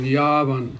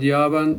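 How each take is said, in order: First: The 'a' vowel is said long. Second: The 'a' vowel is said short. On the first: The speaker calls it right. "pronounce long" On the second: The speaker calls it wrong. "So not yavan"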